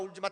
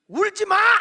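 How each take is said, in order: First: It is said gently and soothingly. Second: It is said with a raised, sharp voice. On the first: The parent is trying to calm the child. "울지마 울지마 달래요" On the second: The parent has lost patience with the child. "톤이 올라가"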